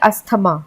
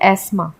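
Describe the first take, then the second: First: A th sound is heard after the s. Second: No th sound is heard after the s. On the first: The speaker calls it wrong. "इसको generally लोग बोलते हैं अस्थमा" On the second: The speaker calls it right. "हम इसे बोलते हैं एस्मा"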